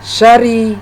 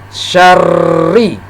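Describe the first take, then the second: First: The r is short and single. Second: The r is held long and doubled. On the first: The speaker calls it wrong. "Tidak boleh dibaca syari" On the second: The speaker calls it right. "jadi dibaca syarri"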